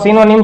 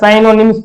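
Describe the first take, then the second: First: The first syllable sounds like 'sin'. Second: The first syllable sounds like 'sign'.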